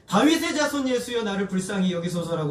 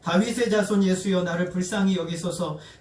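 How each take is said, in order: First: The cry is said much louder. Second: The cry is said at normal loudness.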